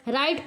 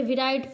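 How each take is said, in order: First: राइट starting on R; silent W. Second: विराइट with W sounded, "vi-rait"; wrong pronunciation. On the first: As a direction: drop the W in राइट. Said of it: "राइट पढ़ते हैं". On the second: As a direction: add "vi" before the R in विराइट. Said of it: "ना कि ... विराइट". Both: Shown as a demonstration.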